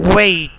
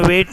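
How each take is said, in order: First: It is pronounced with a British English accent. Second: It is pronounced with a Pakistani English accent. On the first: The speaker calls it right. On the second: The speaker calls it wrong.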